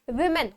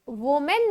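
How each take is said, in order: First: The first vowel sounds like 'ih'. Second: The first vowel sounds like 'oh'. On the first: The speaker calls it right. "Plural विमेन होता है" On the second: The speaker calls it wrong. "वोमेन नहीं होता"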